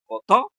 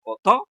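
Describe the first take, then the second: First: The stress is on the middle syllable. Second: The stress is on the middle syllable.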